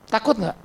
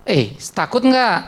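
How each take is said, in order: First: Said in the usual way. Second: "takut nggak" asked again slowly and pressed; slow insistent question. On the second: Acted. Pressing the silent congregation for an answer, slow and insistent.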